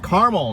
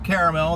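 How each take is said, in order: First: The word is said with two syllables. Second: The word is said with three syllables. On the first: The speaker calls it right. "it is Carmel" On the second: The speaker calls it wrong. "not Caramel. There's no A in the middle there"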